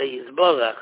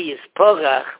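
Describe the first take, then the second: First: The middle consonant is a b sound. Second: The middle consonant is a p sound. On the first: It means to be blessed. The speaker calls it right. "we say yisborach" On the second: It means to crumble. The speaker calls it wrong. "If you say yisporach, what means maybe to crumble"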